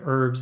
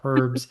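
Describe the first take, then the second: First: It is said with the American pronunciation. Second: It is said with a non-American pronunciation. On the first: "in the United States, for whatever reason, we say herbs" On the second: "instead of herbs"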